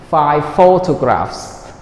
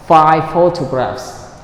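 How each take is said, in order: Both takes have the same delivery.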